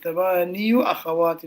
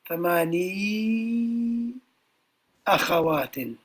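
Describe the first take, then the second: First: The first word ends with a full 'yu' syllable. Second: The first word ends in 'ee' with no 'yu'. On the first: The speaker calls it wrong. "It's difficult to say it. It's heavy on the tongue" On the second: The speaker calls it right. "this the end of this word is read thamani akhawatin"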